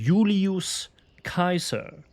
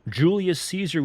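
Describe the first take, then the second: First: Caesar begins with a hard k sound. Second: Caesar begins with a soft s sound. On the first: The speaker calls it right. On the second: The speaker calls it wrong.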